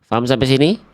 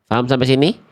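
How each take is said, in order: The two takes are said the same way.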